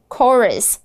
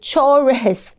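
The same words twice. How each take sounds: First: The word begins with a k sound. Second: The word begins with a ch sound. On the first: The speaker calls it right. "这个ch 发的是k 的音" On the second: The speaker calls it wrong. "不要说成chorus"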